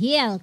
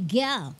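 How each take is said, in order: First: The name begins with an H sound. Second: The name begins with a hard G sound. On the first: "Hindi nila pronounce na Hill" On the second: "kundi Gil"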